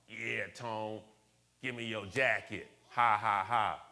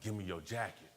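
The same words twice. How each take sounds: First: Mocking schoolmates' tease, spoken fake laugh; tease, then punch out a loud "ha, ha, ha"; imitated jeering with mock laughter; joking taunt. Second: Understated retold robbery demand; matter-of-fact imitation of a mugger; retold robber's demand. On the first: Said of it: "Making a big joke out of it". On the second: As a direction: quote a mugger's demand without raising the voice. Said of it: "put it to my throat".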